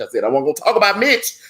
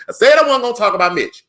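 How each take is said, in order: First: Said in the usual way. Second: High, louder repeat scolding himself; playful exasperation at himself; mock exasperated self-scolding. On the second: Real, not acted. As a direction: tell yourself off, exasperated. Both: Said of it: "hold on, let me get off Mitch".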